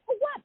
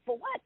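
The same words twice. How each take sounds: First: Much higher, curious "For what?"; reporter asking. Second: Said in the usual way. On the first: Retold or imitated. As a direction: voice the surprised reporter going up high on "For what?". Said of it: "And she's like". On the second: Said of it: "But I didn't have a".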